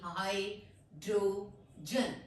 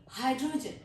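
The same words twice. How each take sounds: First: hydrogen very slow, in three separate parts; split into syllables. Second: Said in the usual way. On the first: Shown as a demonstration. Teacher dividing a long word, syllable by syllable. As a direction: break it as हाइ, draw, जन with gaps. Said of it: "syllables में divide करूंगी". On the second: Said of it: "इकट्ठा बोलेंगे".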